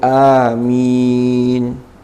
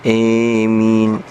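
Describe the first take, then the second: First: The first vowel is a long a. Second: The first vowel is a long e-like sound. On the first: "amin bil maddi, kelawan mad, jadi a-nya dibaca mad" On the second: "dibaca imalah... sehingga bacanya emin"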